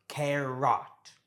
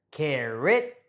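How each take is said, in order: First: Carrot with a full "o", care-ROT; slow carrot, second syllable rhyming with "rot"; over-pronounced vowel. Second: Carrot with the "o" reduced to "ih/uh"; carrot, lazy second vowel; natural schwa pronunciation. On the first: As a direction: say carrot with no schwa in the ending. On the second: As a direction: say carrot as CARE-ut. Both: Shown as a demonstration. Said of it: "and not carrot".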